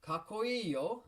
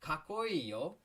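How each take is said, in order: First: Very high, slow, strained kakkoi yo; a take that came out odd; weird-sounding take. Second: High, loud, rising kakkoi yo; redo. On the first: Teacher flubs a model take, sounding strange. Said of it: "kinda sounded weird". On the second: Teacher redoes kakkoi yo after weird take. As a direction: redo it cleanly. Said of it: "Sorry, the f-, kinda sounded weird". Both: Shown as a demonstration.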